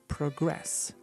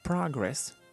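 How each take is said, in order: First: The stress is on the second syllable. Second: The stress is on the first syllable. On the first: It is used as a verb. "the intonation is on the second syllable" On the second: It is used as a noun. "the intonation is on the first syllable"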